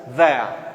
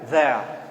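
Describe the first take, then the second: No difference in how they are said.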